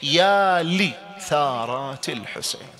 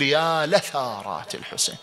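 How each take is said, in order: First: Slow careful يا لثارات with a clear kasra on the lam, لِثارات; read with kasra. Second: يا لثارات with an open fatha on the lam, لَثارات; read with fatha. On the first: Teacher to students, reading لِثارات slowly with kasra. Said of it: "نقرأها بالكسر". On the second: Teacher giving the second reading, لَثارات with fatha. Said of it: "بالفتح". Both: Shown as a demonstration.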